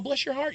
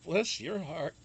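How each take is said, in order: First: It is said in a warm, sweet tone. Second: It is said in a scornful, insulting tone. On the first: The listener is kind and lovely. "Bless your heart can mean simply bless your heart, like, oh, bless your heart, you're so sweet" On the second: The listener is being insulted. "or bless your heart, you son. Um, you know, they, they say it that way"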